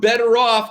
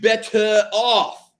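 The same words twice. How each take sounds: First: It is said with an ordinary English pronunciation. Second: It is said with a French-sounding pronunciation. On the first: "From better off" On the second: "to better off. ... French girls will love it"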